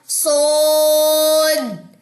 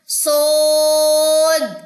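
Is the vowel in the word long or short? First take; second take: long; long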